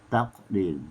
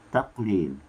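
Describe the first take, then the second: Both takes have the same delivery.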